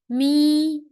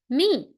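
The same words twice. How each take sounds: First: The pitch stays high and level. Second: The pitch falls sharply from high to low. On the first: "and the first tone" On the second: "Last tone"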